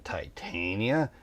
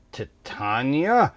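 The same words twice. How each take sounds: First: "Titania" as tie-TAIN-ya; "Titania" rhyming its middle with rain; first pronunciation option. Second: "Titania" as tih-TAHN-ya, rising; questioning "Titania", short first vowel, TAHN stressed; second pronunciation option. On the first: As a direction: say "Titania" with a long i, then TAIN. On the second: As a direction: say "Titania" with a broad AH in the middle. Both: Shown as a demonstration. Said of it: "how to say this name".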